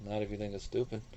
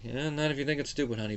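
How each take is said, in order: First: It sounds languid and relaxed, post-coital. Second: It sounds distracted, half paying attention.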